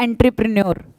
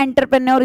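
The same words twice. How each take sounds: First: "एंटरप्रेन्योर" said as en-tri-pri-nior, ending in a clear "nior"; correct pronunciation. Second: Quick common mispronunciation "एंटरप्रेन्योर" as en-ter-pre-nyor, said fast; wrong pronunciation. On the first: Teacher to students, modelling the correct way to say it. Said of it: "Actually pronunciation होती है". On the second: Teacher to students, showing the common wrong way, said quickly. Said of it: "इसलिए गलत लिखते हैं". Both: Shown as a demonstration.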